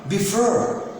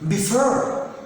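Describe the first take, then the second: The two takes are said the same way.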